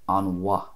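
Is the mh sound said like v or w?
W. It has a w sound with no extra vowel. "in the other dialects, the M H would be a W sound"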